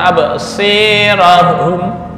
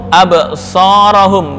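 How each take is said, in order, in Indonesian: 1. Vokal setelah s condong ke i. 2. Vokal setelah s adalah a polos. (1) "boleh nggak dibaca absirahum? Enggak" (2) "yakhtafu absarahum"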